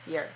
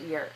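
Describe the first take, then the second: First: The word is unstressed and reduced. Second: The word is unstressed and reduced.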